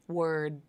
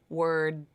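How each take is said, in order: Both takes have the same delivery.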